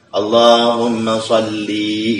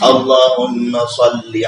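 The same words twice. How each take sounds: First: The final vowel of sholli is drawn out long. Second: The final vowel of sholli is kept short. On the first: It addresses God as if female. The speaker calls it wrong. "kayak gitu panjang itu" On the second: It addresses God with the proper masculine form. The speaker calls it right. "usollinya itu pendek"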